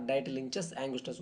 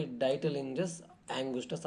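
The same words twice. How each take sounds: First: Ditylenchus said with a ch sound, "dye-tuh-LIN-chus"; alternative pronunciation. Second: Ditylenchus said with a soft j, "dye-tuh-LIN-jus"; variant pronunciation. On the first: Teacher offering another way to say it, Ditylenchus with a ch sound. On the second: Teacher reading out a disease's cause, Ditylenchus with a j sound. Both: Shown as a demonstration. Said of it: "whatever you want to pronounce it".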